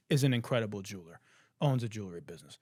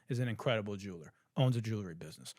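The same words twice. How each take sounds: The two takes are said the same way.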